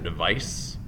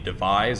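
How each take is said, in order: First: The word ends with an s sound. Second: The word ends with a z sound. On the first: The speaker calls it wrong. "if there was a C, you could say device" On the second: The speaker calls it right. "I call it devise"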